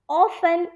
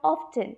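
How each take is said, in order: First: The T sound is silent. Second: The T sound is pronounced. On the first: The speaker calls it right. "The T has to be silent and it has to be often" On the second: The speaker calls it wrong. "it's not often"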